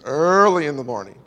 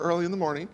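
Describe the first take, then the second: First: It is said in a preacher's imitated delivery. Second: It is said in an ordinary, everyday way. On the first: "I say them in a certain way because I heard a preacher say them that way" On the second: "It's never early in the morning"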